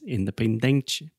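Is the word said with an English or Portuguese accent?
Portuguese. It has Portuguese-style stress and vowels.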